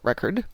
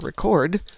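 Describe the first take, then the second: First: The stress is on the first syllable. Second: The stress is on the second syllable. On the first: The speaker calls it right. "as opposed to a record" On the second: The speaker calls it wrong. "mispronouncing words"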